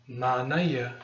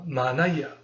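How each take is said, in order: No difference in how they are said.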